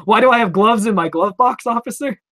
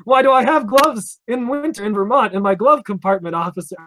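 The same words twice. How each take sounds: First: Sarcastic retort. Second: Exaggerated sarcastic retort. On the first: Pretend. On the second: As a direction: lean hard on glove, mocking the officer's question. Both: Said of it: "I didn't say any of that".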